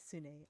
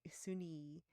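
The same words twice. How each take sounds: First: "Sune" ending in an ay sound; corrected name. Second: "Suni" ending in an ee sound; botched name. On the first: Game master echoing the player's correction, "Sune" with a final ay. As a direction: say "Sune", last syllable as "nay". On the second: Game master fumbling a character's name, "Suni" with a final ee. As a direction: say "Suni", last syllable as "nee". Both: Real, not acted. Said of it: "I'm botching this name up".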